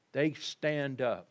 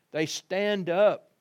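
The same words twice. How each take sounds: First: Said in the usual way. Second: Higher, louder and slow; rising exclamation. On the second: Acted. Preacher to congregation, proclaiming the angels stood, louder. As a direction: lift it and proclaim it.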